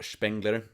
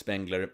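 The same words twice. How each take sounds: First: The name has a German pronunciation. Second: The name has an English pronunciation.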